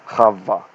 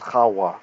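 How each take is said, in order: First: The name is said with a V sound. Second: The name is said with a W sound. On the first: This is the modern way the name is said. The speaker calls it wrong. "not Adam and Chava" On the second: This is how the name was said in ancient times. The speaker calls it right. "It's Adam and Chawa"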